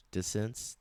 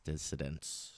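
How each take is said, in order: First: Dissonance? asked with a questioning rise; rising question tune. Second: Dissonance. settled with a low, quiet fall; low falling tune. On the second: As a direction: say Dissonance. dropping low and soft. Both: Real, not acted. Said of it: "Excuse me for the marbles in my mouth".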